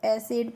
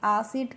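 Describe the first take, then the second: First: The first vowel is 'a' as in cat. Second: The first vowel is an open 'aa'. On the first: The speaker calls it right. "तो इसको एसिड पढ़ेंगे" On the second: The speaker calls it wrong. "आसिड करके नहीं पढ़ते हैं"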